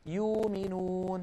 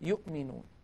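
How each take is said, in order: First: The glottal stop becomes a long vowel. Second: A full glottal stop is pronounced. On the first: "يبدلونها فيقولون يؤمنون" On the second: "بدل أن يقولوا يؤمنون"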